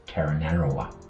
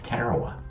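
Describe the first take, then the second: First: The name has five syllables with extra sounds. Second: The name has three syllables without extra sounds. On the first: The speaker calls it wrong. "I couldn't pronounce it. I, I pronounced it as Taranara, Taranarawa" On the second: The speaker calls it right. "He says, "Yeah, Tarawa.""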